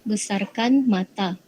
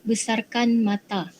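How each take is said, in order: The two takes are said the same way.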